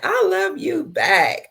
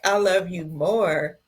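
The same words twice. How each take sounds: First: Sing-song high. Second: Said in the usual way. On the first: Real, not acted. Answering a viewer's love.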